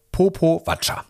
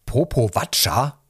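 First: Popowatscha pitched high, ending in a fall; proud announcement. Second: Popowatscha as a rising question; incredulous snort. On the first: Mother naming her first daughter, Popowatscha proudly declared. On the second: Registrar querying the strange name, incredulous rising Popowatscha. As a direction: repeat Popowatscha in doubting disbelief. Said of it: "schnaufte sie". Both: A narrator's reading.

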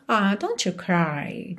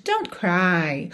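First: Soft, slow and comforting; softly soothing a friend; tender consoling. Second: Said in the usual way. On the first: Shown as a demonstration. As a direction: console a crying friend gently. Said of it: "Tipo, quase, "It's breaking my heart". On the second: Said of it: "falar somente".

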